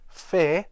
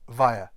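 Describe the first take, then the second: First: It begins with f and rhymes with air. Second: It begins with v and rhymes with fire. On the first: The speaker calls it wrong. "this word is not actually pronounced fair" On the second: The speaker calls it right. "but via, as in fire"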